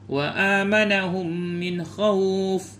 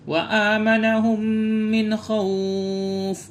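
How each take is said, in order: First: The vowel in the last word is held briefly. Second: The vowel in the last word is held very long. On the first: "Jadi boleh dua"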